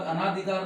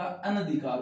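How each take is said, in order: First: अनाधिकार said with long आ after अन, as the mistaken form; wrong form. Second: अनधिकार said with short अ, अन-धिकार, crisp and settled; correct form. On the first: Teacher to exam students, showing the mistaken form अनाधिकार. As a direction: stretch अनाधिकार as अना-धिकार to show the wrong word. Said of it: "नहीं होता". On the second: Teacher to exam students, giving the correct अनधिकार firmly. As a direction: say अनधिकार with a short vowel after अन. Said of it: "होता है". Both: Shown as a demonstration.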